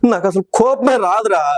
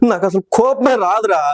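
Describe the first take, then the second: First: The line is delivered in a crying way. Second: The line is delivered in a crying way.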